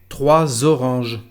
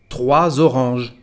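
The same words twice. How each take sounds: No difference in how they are said.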